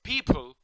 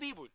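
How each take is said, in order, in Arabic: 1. تبدأ الكلمة بصوت p مهموس. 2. تبدأ الكلمة بصوت b مجهور. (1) "في حاجه اسمها people" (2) "مفيش حاجه اسمها بيبول"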